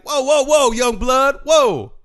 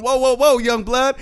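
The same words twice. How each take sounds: First: Put-on loud, high calm-down call to kids; old man calling out. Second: A lighter loud call of whoa whoa; quick replay of the elder's warning; mimicking the old man. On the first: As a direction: hold up the brawl like an old-school elder. Old man breaking up a fight.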